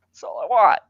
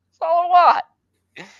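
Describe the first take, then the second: First: Raised, higher exasperated voice; plead, fed up; exasperated plea. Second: Loud, high-pitched desperate cry; fed-up plea boiling over; exasperated outburst. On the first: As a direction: voice rising in exasperation. Pleading repeat, fed up with author. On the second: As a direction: blurt it out much higher and louder. Same plea repeated, escalating. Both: Real, not acted.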